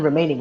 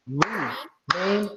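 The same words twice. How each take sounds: First: Said in the usual way. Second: "Remaining" very slowly in three separated, drawn-out syllables, softer. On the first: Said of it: "How many syllables does remaining have". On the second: Shown as a demonstration. Teacher breaking down syllables for student, "Remaining" split slowly in three. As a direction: break "Remaining" into re, main, ing with gaps. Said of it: "It already broke it down for you".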